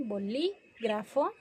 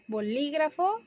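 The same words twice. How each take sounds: First: "bolígrafo" slowly split, boLÍ, pause, grafo; stress on LÍ. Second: Said in the usual way. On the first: Shown as a demonstration. Teacher showing where the accent is, "bolígrafo" slowly broken after stressed LÍ. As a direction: hold the LÍ in "bolígrafo", then pause before grafo. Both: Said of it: "que lleva acento en la L I".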